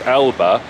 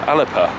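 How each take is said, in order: First: The middle has a b sound, no p. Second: The middle has a p sound. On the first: This is the speaker's usual pronunciation. "I pronounce as Alba" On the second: This is the Gaelic pronunciation. "in Gaelic is pronounced Alepa, with a P"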